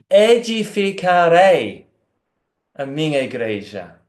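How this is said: The first word carries the emphasis. It is he who will do the building. "pode colocar ênfase na primeira parte"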